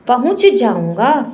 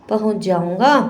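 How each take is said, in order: First: It is said slowly with each sound kept distinct. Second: It is said quickly with the sounds run together. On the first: "जब हम संभाल संभाल कर बोलते हैं" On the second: "यदि बहुत जल्दी से बोलें"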